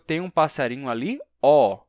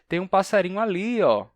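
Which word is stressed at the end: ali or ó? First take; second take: ó; ali. First: The final ó is stressed. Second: The final ó is unstressed. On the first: The speaker calls it wrong. "eu não digo" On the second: The speaker calls it right. "Esse ó que eu estou pronunciando no final é átono"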